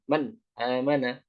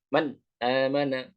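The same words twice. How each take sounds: First: The vowel after the n starts with a hard jolt. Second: The same.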